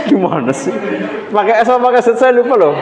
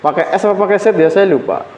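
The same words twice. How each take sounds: First: Laughing. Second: Said in the usual way. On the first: Real, not acted. Lecturer forgets the author's spelling, laughing.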